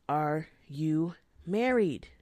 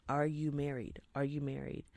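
First: Slow, loud Are you married; slow emphatic repeat; insistent question. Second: Said in the usual way. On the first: Retold or imitated. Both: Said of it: "I'm like".

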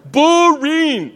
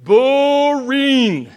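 First: Boring laughed out higher and louder; mock bored, higher. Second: A drawn-out, laughing boring; mock bored. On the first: Preacher tells kids shepherd life, hammed-up boredom. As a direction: push the boredom over the top. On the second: Preacher tells kids shepherd life, mock bored. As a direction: drag the word out like a yawn. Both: Shown as a demonstration. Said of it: "You ready?".

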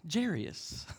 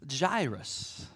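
First: "Jairus" slowly misread as JEER-ee-us; common mispronunciation. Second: "Jairus" drawn out as JY-rus; English pronunciation. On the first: Preacher showing the name he always heard, "Jairus" mispronounced as JEER-ee-us. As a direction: say "Jairus" with an extra syllable, JEER-ee-us. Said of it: "that's the way I've always heard it pronounced". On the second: Preacher teaching congregation the name, English pronunciation "Jairus" as JY-rus. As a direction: say "Jairus" in two beats, first rhyming with eye. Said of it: "The English version is". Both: Shown as a demonstration.

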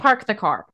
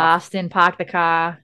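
First: "park the car" with both R's clearly sounded; pronounced R's. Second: Boston "park the car" with dropped R's; Boston accent. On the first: Shown as a demonstration. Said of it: "I say my R's". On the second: Retold or imitated. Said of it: "I don't say park".

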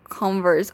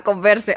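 First: "Converse" as the English brand name, two syllables; English pronunciation. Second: "Converse" read as Spanish con-VER-se, three syllables; Spanish pronunciation. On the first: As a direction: say "Converse" the English way, silent final e. ("Converse" pronunciado en inglés, sin la e final) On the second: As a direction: sound the final e of "Converse", like the verb conversar. ("Converse" a la española, con-ver-se) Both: Shown as a demonstration. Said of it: "Entendí como el pun".

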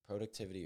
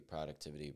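First: Productivity with a long O, PROH-ductivity; first syllable of productivity rhymes with "go"; variant pronunciation. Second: Productivity with an open first vowel, PRAH-ductivity; first syllable of productivity sounds like "prah"; variant pronunciation. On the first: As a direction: say productivity starting like "pro". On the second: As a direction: say productivity starting like "prod". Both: Shown as a demonstration. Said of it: "however you say it".

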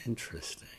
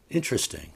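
First: Whispered. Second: Said in the usual way. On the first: Acted. Repeat whispered.

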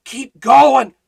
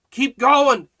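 First: Loud, high rallying cry; rally them like a coach; urgent exhortation. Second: High, louder echo of the cry; repeated exhortation. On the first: Preacher urging the Philippians on, loud. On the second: Preacher repeating his rallying cry. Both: Acted.

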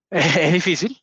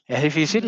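First: Slow, with a small embarrassed laugh. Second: Said in the usual way. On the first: Real, not acted. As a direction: laugh it off gently. Emotional, laughs through the words.

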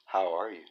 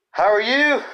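First: Soft low repeated greeting; quiet low repeat. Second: Big high loud greeting. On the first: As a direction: mutter it back low. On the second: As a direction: call out the greeting. Greeting, repeated quietly after. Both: Acted.

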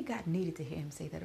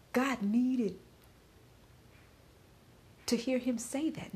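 First: Said in the usual way. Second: "God needed" pushed high and loud, pitch climbing on "to hear him say that"; "God" hit high and strong, then rising on "say that"; emphatic. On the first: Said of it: "when I say". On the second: Real, not acted. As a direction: lean hard on "God needed". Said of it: "when I say God needed to hear him say that".

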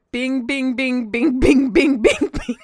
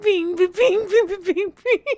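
First: Bings read out as separate spoken words; reading off the sheet. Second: High sung bings, imitating the caller; singing the carol. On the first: Retold or imitated. Cohost reading the transcribed call off the run sheet, recited. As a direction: recite each bing like a written list. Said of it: "it says next on my sheet". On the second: A cohost mimicking the caller's Peanuts carol, playfully sung. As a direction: sing bings as a high little tune.

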